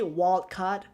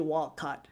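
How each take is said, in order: First: The phrase is said at a careful pace. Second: The phrase is said at a quick pace. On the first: "I usually say wild card" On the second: "if I say it quickly"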